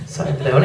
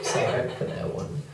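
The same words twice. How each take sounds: First: Said in the usual way. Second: Breathy half-laughed sorry; sorry for that one, under the breath; whispered apology. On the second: Real, not acted. Comic whispering an apology to the crowd.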